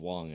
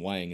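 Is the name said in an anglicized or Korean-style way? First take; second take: Korean-style; anglicized. First: The name is said in a Korean-style way. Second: The name is said in an anglicized way. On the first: This is how the name was originally meant to be said. "should probably be pronounced Whang, and then, like, original Korean" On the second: This is how the name is commonly said now. "everyone just started saying Whang"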